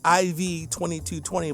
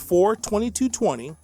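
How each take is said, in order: First: The IV is spoken as two letters. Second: The IV is spoken as the number four. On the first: The speaker calls it wrong. "I could say I V twenty-two twenty, but it just doesn't sound right" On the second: The speaker calls it right. "I believe it should be pronounced as the Roman numerals are saying"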